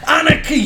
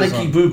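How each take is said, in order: First: It is shouted with anger. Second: It is said flatly, without anger.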